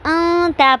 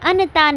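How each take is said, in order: First: The n sound is hidden in the nose. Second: The n sound is pronounced fully clear. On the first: The speaker calls it right. "पढ़ना है" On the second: The speaker calls it wrong. "नहीं पढ़ना"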